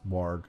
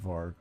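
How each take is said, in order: First: The word begins with a W sound. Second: The word begins with a V sound. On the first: The speaker calls it right. "It's warg" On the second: The speaker calls it wrong. "not varg"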